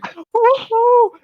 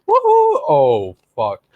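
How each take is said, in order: First: Imitated high, gleeful whoop; excited whoop. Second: Whoop collapsing into dread. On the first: Friend mimicking rider going into the slide, excited whoop. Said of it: "you were excited going in". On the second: Retold or imitated. Friend mimicking rider's regret after jumping, excited-to-dismayed voice. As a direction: start thrilled, then plunge in pitch to dismay. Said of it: "that was the change in your voice".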